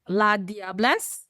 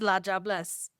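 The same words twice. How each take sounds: First: It is said with a French-style pronunciation. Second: It is said with a Trinidadian Creole pronunciation. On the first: "we don't pronounce it like that" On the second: "in Creole, we pronounce it as"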